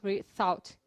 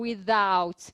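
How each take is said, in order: First: The th is voiceless, a soft hiss. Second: The th is voiced, close to a d. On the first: "Ele não tá fazendo without" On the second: "Ele tá fazendo vozeado"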